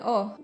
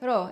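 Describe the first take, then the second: First: It is said as a bare o vowel. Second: It is said with an o vowel after r. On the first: This is an even more reduced colloquial form. "and even o" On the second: This is the colloquial spoken form. "they say ro"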